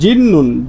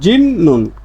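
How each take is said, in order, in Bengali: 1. মাঝের ব্যঞ্জনটি দ্বিত্ব n ধ্বনিতে পরিণত হয়। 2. মাঝের ব্যঞ্জনটি দ্বিত্ব n ধ্বনিতে পরিণত হয়।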